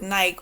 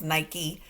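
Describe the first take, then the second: First: Nike said as one syllable, rhyming with bike. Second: Nike in two syllables, NY-kee; son's pronunciation of Nike. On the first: Shown as a demonstration. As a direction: say Nike with a silent final e. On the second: Retold or imitated. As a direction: say Nike with a final "ee", rhyming with spiky. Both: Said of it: "or as my son says".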